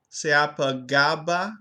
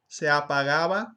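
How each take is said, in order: First: The g between vowels is a hard stop. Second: The g between vowels is a soft fricative. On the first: The speaker calls it wrong. "I pronounced the phrase se apagaba as" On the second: The speaker calls it right. "when it should be"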